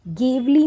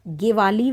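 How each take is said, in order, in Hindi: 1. नाम दो अक्षरों में बोला जाता है। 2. नाम तीन अक्षरों में बोला जाता है।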